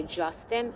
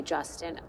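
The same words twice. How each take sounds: First: Justin? with a rising, unsure tune; questioning Justin. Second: "Justin." said flat and quiet, falling; just state "Justin." softly; flat statement. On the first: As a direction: ask "Justin?" as a hesitant question. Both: Retold or imitated. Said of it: "I think I then did say".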